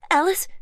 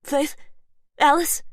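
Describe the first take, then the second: First: High, loud questioning call. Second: High, loud call through a door. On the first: Unseen voice outside the door calls for Alice. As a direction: call her name again, rising. Voice calling through locked door. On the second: Voice outside the door calls loudly for Faith and Alice. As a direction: call her name from outside. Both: Acted.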